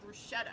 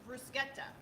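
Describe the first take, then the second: First: The middle consonant is an sh sound. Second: The middle consonant is a k sound. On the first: The speaker calls it wrong. "a lot of people mispronounce, you know, and they say bruschetta" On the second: The speaker calls it right. "I love how you're saying bruschetta"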